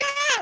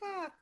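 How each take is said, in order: First: It is a loud, big cry. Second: It is a small, faint cry.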